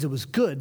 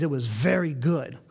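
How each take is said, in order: First: Said in the usual way. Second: "very" leaned on, set apart from plain "good"; stress on very. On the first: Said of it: "He ended every day with the phrase". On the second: Shown as a demonstration. Preacher contrasting good with very good, stress on "very". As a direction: lean into "very" to show the upgrade. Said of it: "with the phrase".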